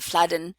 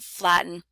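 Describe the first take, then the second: First: The middle consonant is a D-like flap. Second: The middle consonant is a glottal stop. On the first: The speaker calls it wrong. "it definitely does not sound like a D" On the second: The speaker calls it right. "we get glottal stop um, occurring before n"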